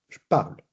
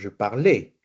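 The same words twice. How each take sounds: First: The final E of parle is silent. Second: The final E of parle is clearly pronounced. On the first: The speaker calls it right. "No, je parle" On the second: The speaker calls it wrong. "bajo ningún punto estoy diciendo je parle"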